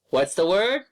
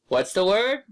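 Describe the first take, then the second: The two takes are said the same way.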